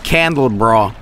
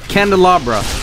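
First: The word is said as candle bra. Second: The word is said as can-de-la-bra. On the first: The speaker calls it wrong. "It's not as I used to say it, aka candle bra" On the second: The speaker calls it right. "That's how you say this, right?"

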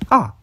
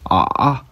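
First: The pitch falls sharply toward the end. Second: The pitch stays low and deep. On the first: "4성은 아 하고 내려가는 성조" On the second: "3성은 아 하고 저음, 낮은 소리가 나는 성조"

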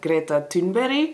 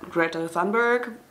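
First: The name is said with a Swedish accent. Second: The name is said with an English accent. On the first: "but how you actually pronounce this is" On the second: "I think English people pronounce it"

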